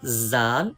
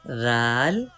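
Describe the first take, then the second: First: The first consonant has a sharp whistling hiss. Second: The first consonant is soft, without a whistling hiss. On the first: The speaker calls it wrong. "With whistle sound zal, this is wrong pronunciation" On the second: The speaker calls it right. "right pronunciation"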